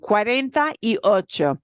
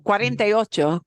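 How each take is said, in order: First: The phrase is said slowly and carefully. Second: The phrase is said fast and run together. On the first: "now I say it slowly for you" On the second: "sounds way faster"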